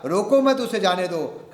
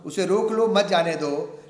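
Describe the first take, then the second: First: रोको मत as one unit, then उसे जाने दो; break after मत. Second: उसे रोक लो, then मत जाने दो together; उसे रोक लो set apart as the first command; break after रोक लो. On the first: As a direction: join मत firmly to रोको. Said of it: "लेकिन साथियों ने कह दिया". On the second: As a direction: keep मत with जाने दो. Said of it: "मैं कुछ कहना चाह रहा हूं". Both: Shown as a demonstration.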